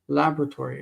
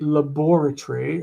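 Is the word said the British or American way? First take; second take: American; British. First: It is said the American way. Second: It is said the British way. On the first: "laboratory in America" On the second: "like the British say"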